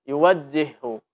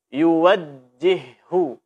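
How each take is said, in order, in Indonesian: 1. Huruf j yang ganda diucapkan dengan lemah dan tidak jelas. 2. Huruf j yang ganda diucapkan dengan tegas dan jelas. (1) "Jangan sampai dibaca... Ini tidak jelas" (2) "Mesti dibaca dengan jelas"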